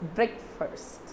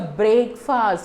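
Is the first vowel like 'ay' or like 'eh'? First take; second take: eh; ay. First: The first vowel sounds like short 'eh'. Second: The first vowel sounds like 'ay' in 'brake'. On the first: The speaker calls it right. "The same way, it's breakfast" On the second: The speaker calls it wrong. "Never say it's a breakfast. It's very wrong"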